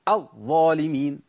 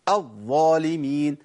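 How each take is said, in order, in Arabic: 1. الحرف المشدد يُدفع للخارج بنبرة قوية. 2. الحرف المشدد يُدفع للخارج بنبرة قوية.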